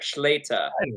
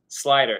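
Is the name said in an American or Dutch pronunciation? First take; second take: Dutch; American. First: The name is said with a Dutch pronunciation. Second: The name is said with an American pronunciation.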